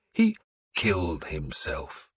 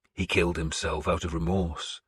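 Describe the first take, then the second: First: Growled. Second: Said in the usual way. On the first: A narrator's reading. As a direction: growl it out slowly. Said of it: "I had growled". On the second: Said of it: "I had told him".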